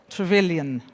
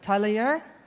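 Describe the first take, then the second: First: The name is pronounced the English way. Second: The name is pronounced the French way. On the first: The speaker calls it right. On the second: The speaker calls it wrong.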